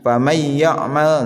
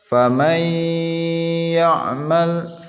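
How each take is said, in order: First: The n merges into ya with no nasal hum. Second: A nasal hum is held for two beats. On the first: The speaker calls it wrong. "hanya dibaca tanpa gunnah, itu disebut dengan idgham yang sempurna" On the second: The speaker calls it right. "Jadi ditahan dua harokat"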